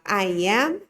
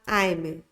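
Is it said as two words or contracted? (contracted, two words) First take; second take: two words; contracted. First: Both words are said in full, separately. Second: The words are joined into one short syllable. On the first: "você pode falar I am" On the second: "Você pode falar da forma reduzida também"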